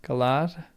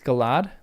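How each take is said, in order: First: The final th is voiced, as in these. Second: The same.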